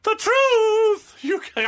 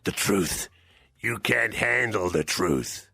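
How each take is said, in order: First: Very high, loud diva send-up; botched, over-the-top showbiz impression. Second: Low, slow movie-star impression; deep, deliberate film-actor imitation. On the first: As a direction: belt it out high like a stage star. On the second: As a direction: drop low and drag out the courtroom line.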